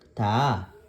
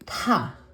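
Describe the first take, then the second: First: The consonant is plain, without a puff of air. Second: The consonant is released with a strong puff of air. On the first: "bagsak lang" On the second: "aspirated form ni ta"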